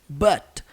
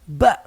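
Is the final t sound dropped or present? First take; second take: present; dropped. First: The final t sound is pronounced. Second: The final t sound is left off.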